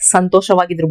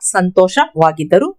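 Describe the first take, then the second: First: The ending is shortened to -idru. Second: The ending is said fully as -iddaru. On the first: This is the local spoken form. "हम local accent में कैसे बोलेंगे" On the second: This is the bookish form. "इसको हम किताबी वर्षन में बोलते हैं"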